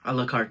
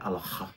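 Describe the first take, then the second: First: It is said with an anglicized pronunciation. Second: It is said with a French pronunciation.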